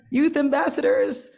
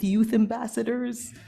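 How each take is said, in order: First: Youth ambassadors, youth pitched high and loud; emphatic stress. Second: Said in the usual way. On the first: Real, not acted. Repeated for emphasis.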